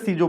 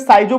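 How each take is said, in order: First: The first syllable sounds like 'see'. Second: The first syllable sounds like 'sigh'. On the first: Other people read it this way. "कुछ लोग इसे सीजो पढ़ते हैं" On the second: Some people read it this way. "कुछ लोग इसे साइजो पढ़ते हैं"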